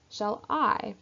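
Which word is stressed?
I. The stress falls on the word I. The speaker is not in doubt. The speaker calls it right. "don't place on that first syllable"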